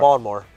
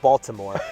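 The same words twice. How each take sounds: First: The middle consonant sounds like a D. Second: The middle consonant sounds like a T. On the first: "I said it with a D" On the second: "instead of"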